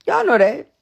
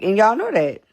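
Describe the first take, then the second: First: Higher and louder, pointed; emphatic repeat. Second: Said in the usual way. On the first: Real, not acted. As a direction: hit it harder the second time.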